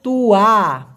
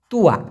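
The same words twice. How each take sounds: First: তুয়া stretched out as tuu-waa; drawn-out pronunciation. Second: Said in the usual way. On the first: Shown as a demonstration. Teacher shows how তুয়া is pronounced, long syllables. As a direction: hold both syllables of তুয়া. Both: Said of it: "উচ্চারণটা হবে".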